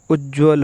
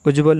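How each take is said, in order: First: उज्ज्वल with a held double j; उज्ज्वल leaning on the jj; correct pronunciation. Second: उज्ज्वल with a short single j; उज्ज्वल without doubling the j; wrong pronunciation. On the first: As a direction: say उज्ज्वल as "ujj-val". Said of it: "उज्ज्वल होता है". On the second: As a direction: say उज्ज्वल as "uj-val". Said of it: "उज्ज्वल नहीं". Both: Shown as a demonstration.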